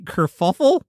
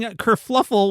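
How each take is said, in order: First: The middle syllable has no L sound. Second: The middle syllable has an L sound. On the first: The speaker calls it right. "it's apparently kerfuffle?" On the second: The speaker calls it wrong. "I've been saying kerfluffle, which is incorrect"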